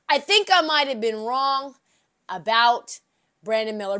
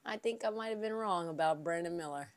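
First: With more bass. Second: "I think I might have been wrong about Brandon Miller" murmured low and soft; soft reluctant admission; hushed confession. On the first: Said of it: "say it with a little more bass in my voice". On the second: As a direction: confess it under your breath. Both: Shown as a demonstration.

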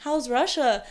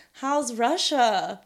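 First: Slightly higher loaded question; hint that something is up. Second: Slow, drawn-out loaded question. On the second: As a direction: ask it as if something's going on there. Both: Retold or imitated. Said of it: "with that exact tone".

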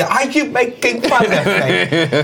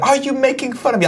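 First: Slow, high, exaggerated British accent; drawn-out mock British indignation, laugh creeping in; Michael Caine. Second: High-pitched mock British accent; nervous British indignation, pitched way up; Michael Caine. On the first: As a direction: stretch it out into fuller British caricature. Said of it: "more and more Michael Caine". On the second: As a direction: put on a hammed-up British accent. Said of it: "you get into a British accent". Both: Shown as a demonstration.

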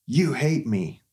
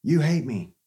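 First: Put-on sulky little boy. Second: Higher, louder mock-whiny retort; childish sulk. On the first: Son storming out after being refused cereal, mock sulky wail. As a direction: throw it back at Mom like a hurt six-year-old. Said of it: "He goes". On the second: Us answering criticism like a hurt child, mock whine. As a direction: pout like a kid who got told no. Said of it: "and we go".

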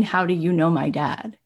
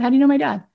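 First: Said in the usual way. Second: High, louder puzzled question; retold astonishment. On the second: Son questioning Howard about his dad, astonished. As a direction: pitch leaping in baffled surprise.

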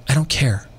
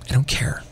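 First: A touch of deadpan, no heat in it; flat indifference. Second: Softer, barely voiced, shrugging it off; quiet indifference. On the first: Retold or imitated. Telling the woman at the gym, mild deadpan indifference. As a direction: let it drop flatly, like it doesn't matter. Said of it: "I said it to her like that". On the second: Repeating it to the woman berating him, hushed shrug. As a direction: breathe it out like you've stopped bothering. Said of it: "I said it to her like that, like, five times".

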